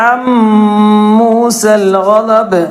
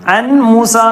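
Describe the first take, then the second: First: The n merges into a nasalized m sound. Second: A clear n sound comes before musa. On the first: The speaker calls it right. "നൂനിനെ മീമിലേക്ക് കൂട്ടി യോജിപ്പിക്കുകയും മണിക്കുകയും ചെയ്യുക" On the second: The speaker calls it wrong. "അൻ മൂസ എന്ന് പറയരുത്"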